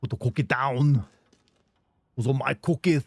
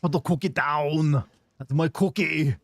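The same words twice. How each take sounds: First: Another try at the Arnold cookie line; rusty Austrian accent, out of practice. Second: Slow Austrian Arnold impression, louder; badly done Austrian strongman voice. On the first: Retold or imitated. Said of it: "do this voice so much better". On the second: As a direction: drag out the cookie line like Arnold Schwarzenegger. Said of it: "prepare my Arnold voice".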